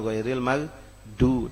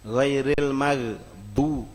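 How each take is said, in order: First: The consonant in maghdu is a plain d sound. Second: The consonant in maghdu is emphatic, not plain d.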